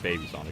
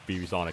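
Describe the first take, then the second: First: The first part is said as the word baby. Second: The first part is said as two letters. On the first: The speaker calls it right. "I'm gonna guess it's Baby Sonic" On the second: The speaker calls it wrong. "I've just been pronouncing it wrong this entire time"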